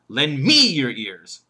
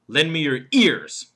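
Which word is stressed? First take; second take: me; ears. First: The stress falls on the word me. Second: The stress falls on the word ears. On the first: Listen to this speaker rather than another one. "He could put the emphasis on me" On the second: Lend ears rather than eyes, nose or hands. "And then there's the fourth word, ears"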